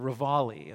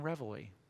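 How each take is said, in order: First: The word is said in a British way. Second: The word is said in a non-British way.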